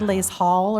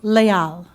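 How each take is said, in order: First: It is pronounced the English way, with an S. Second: It is pronounced the French way, without an S. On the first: The speaker calls it wrong. "in English we want to say les hall or something. Please don't say that" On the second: The speaker calls it right. "it's leal"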